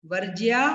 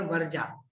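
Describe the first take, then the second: First: वर्ज्या with clear "jiyaa"; correct form. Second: वर्जा with straight "jaa"; mistaken form. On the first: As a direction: keep the y-glide audible in वर्ज्या. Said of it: "वर्ज्या बोलना है हमें". (वर्ज्या, 'ज्या' साफ़ बोलकर) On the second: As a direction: drop the y-glide in वर्जा. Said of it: "वर्जा नहीं बोलना है". (वर्जा, बिना 'य' के) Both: Shown as a demonstration.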